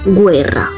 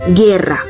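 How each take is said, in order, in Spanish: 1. La g va seguida de una semivocal w. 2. La g pasa directamente a un sonido e. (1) "en italiano, se pronuncia guerra" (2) "En español, esto se pronuncia como guerra"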